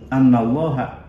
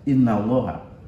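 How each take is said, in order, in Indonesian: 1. Kata pertama diawali dengan vokal 'a'. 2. Kata pertama diawali dengan vokal 'i'. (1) "ay bi anna" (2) "dalam bacaan lain anna dibaca inna"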